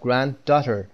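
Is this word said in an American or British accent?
American. It is said in an American accent.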